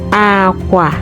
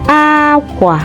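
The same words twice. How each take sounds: First: It has the tone pattern of the word 'bed'. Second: It has the tone pattern of the word 'clothes'. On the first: It means bed. "Aqua bed" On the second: It means clothes. "Aqua clothes"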